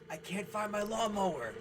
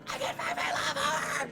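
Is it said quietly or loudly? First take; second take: quietly; loudly. First: It is said quietly, just reported. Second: It is screamed loudly, imitating the girl.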